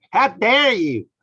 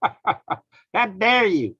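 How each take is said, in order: First: High, loud scolding outrage; mock Greta's furious rebuke; Greta impression. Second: Very slow, high, dragged-out scolding; Greta impression, slow. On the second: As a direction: stretch every word in mock outrage. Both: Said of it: "Greta going".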